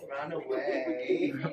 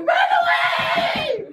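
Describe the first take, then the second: First: It is said calmly in a normal voice. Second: It is screamed loudly in a weird voice. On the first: The speaker calls it wrong. "you don't run away" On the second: The speaker calls it right. "I did it in a weird voice"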